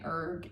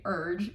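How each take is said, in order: First: The word ends with a hard g sound. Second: The word ends with a soft j sound. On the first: This is how the speaker says it. "I'm saying erg, E R G" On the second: This is how the partner says it. "Avi's saying urge, U R G E"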